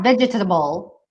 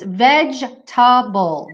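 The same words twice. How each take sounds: First: The word is said with four syllables. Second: The word is said with three syllables. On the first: The speaker calls it wrong. "It's not vegetable" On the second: The speaker calls it right. "it's vegetable, vegetable. Three syllables"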